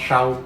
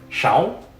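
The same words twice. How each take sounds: First: The word is said at a level, lower pitch. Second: The word is said at a much higher pitch. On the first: It means behind or in the back. "Without it, it's pronounced shao" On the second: It means six. "that word is pronounced a lot higher"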